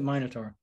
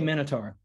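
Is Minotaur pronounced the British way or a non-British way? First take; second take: British; non-British. First: The word is pronounced the British way. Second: The word is pronounced a non-British way. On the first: "the Brits pronounce it Minotaur" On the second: "But I say Minotaur"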